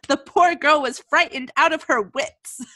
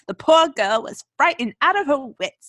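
First: It is spoken in her normal accent. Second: It is spoken in a British accent.

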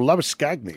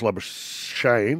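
First: The name is said the South African way. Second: The name is said the usual local way.

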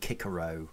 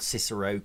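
First: The first C is a hard K sound. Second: The first C is a soft S sound. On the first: This is the newer scholarly way to say it. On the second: This is the traditional English way to say it.

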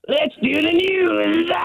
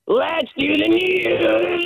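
First: It is said short and quick. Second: It is said long and drawn out.

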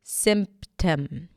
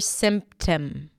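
Both takes have the same delivery.

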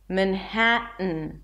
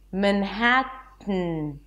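First: The middle T is a stop in the throat. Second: The middle T is released through the nose. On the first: "some people substitute the T with a glottal stop" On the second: "I block the air with my tongue and I release it through the nose"

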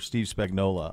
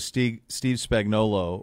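First: The surname ends with an 'ola' sound. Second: The surname ends with an 'olo' sound.

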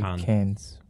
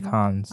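First: It is said the American way. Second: It is said in a non-American way. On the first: "Americans say Cannes" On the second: "But I say Cannes"

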